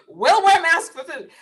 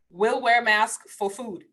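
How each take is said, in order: First: Higher, louder, slowed; slow emphatic restatement; emphatic repeat. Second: Laughing aside. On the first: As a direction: punch it out slowly with emphasis. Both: Real, not acted.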